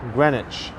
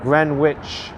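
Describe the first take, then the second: First: The H in the middle is silent. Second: The H in the middle is pronounced. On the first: The speaker calls it right. "I think the H is silent" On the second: The speaker calls it wrong. "not Greenwich"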